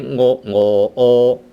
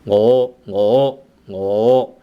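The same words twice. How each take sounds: First: Ngo ngo o drawn out in separate pieces; slow split rising tone. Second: Ngo ngo ngo said quickly as one rising word; fast rising tone. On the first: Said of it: "Instead of saying". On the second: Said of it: "you have saying". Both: Shown as a demonstration.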